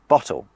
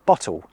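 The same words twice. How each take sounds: First: The final L is a clear L. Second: The final L sounds like a W. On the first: This is the standard pronunciation. "instead of" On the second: This is how some local speakers say it. "some people now say"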